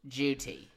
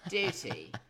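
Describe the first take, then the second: First: It starts with a J sound. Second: It starts with a D gliding into Y. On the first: "Sometimes the D turns into a J"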